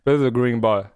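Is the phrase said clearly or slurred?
slurred. It is said slurred, in a hard-to-follow accent.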